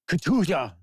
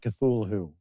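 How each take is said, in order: First: The name sounds harsh, like a cough or sneeze. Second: The name is said smoothly in ordinary English sounds. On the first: The speaker calls it right. "It's almost like a cough, sneeze" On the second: The speaker calls it wrong. "I know it's not Cthulhu"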